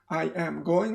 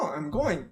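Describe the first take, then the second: First: I am is said as two full words. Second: I am is shortened to one syllable. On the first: The speaker calls it wrong. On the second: The speaker calls it right.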